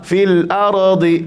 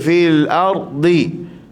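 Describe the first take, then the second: First: The r bounces with an extra echoing sound. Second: The r is short and plain, without bouncing. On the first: The speaker calls it wrong. "Ataupun dia melantunkan ra" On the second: The speaker calls it right. "pastikan ya"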